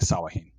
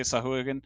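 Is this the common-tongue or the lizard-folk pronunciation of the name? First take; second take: lizard-folk; common-tongue. First: The name is said in its lizard-folk form. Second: The name is said in its common-tongue form. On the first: This is how the lizard folk say it. "the lizard folk pronounce it as Sawahin" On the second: This is how ordinary townsfolk say it. "like in the common tongue, it would be Sahuagin"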